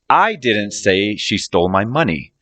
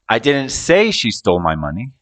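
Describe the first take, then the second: First: The word "I" is stressed. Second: The word "say" is stressed. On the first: Someone else said it, not the speaker. "I'm saying someone else said it, not me" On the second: It was implied or thought, not said. "I might have implied it or thought it, but didn't say it"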